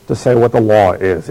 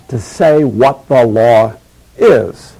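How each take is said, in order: First: Said in the usual way. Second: "to say what the law is" drawn out slowly, with a pause before "is"; slow right down on "to say what the law", pause, then land "is"; emphatic repetition. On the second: Acted. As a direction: spell out "to say what the law is" slowly and weightily, holding back "is". Repeats quoted line for emphasis.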